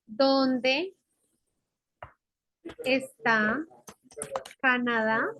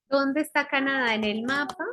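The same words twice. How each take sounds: First: "Dónde", "está", "Canadá" each alone, rising, long pauses between; word-by-word dictation. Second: Said in the usual way. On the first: Shown as a demonstration. Teacher writing out the question, word-by-word dictation. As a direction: dictate one word at a time, lifting each ending.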